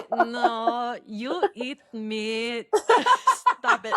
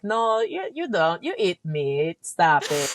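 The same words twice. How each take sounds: First: Bad Filipino accent. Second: Lightly voiced Filipino auntie accent, slowing on you eat meat; a hint of a Filipino aunt scolding, slow and firm. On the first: Sister attempts brother's Filipino aunt impression, laughing. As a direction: giggle through a terrible Filipino aunt accent. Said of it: "I can't do it. It's terrible". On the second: Filipino aunt insisting he eat meat, in a light Filipino accent. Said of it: "How do you do the accent".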